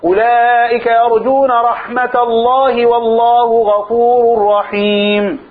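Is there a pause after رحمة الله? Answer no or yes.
no. It runs on without a pause after رحمة الله. The closing phrase is tied to the preceding words. "ويجوز الوصل"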